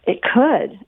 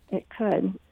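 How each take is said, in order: First: Said in the usual way. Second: Softer reflective repeat; quiet echo. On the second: Real, not acted. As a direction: say it again to yourself. Soft echo of her answer.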